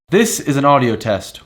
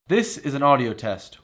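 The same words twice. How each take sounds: First: The voice is compressed and sounds crisp and boosted. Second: The voice is plain, without compression processing. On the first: "this is how it sounds with the multi-band compressor" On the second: "here is how it sounds without the multi-band compressor"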